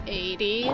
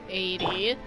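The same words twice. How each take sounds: The two takes are said the same way.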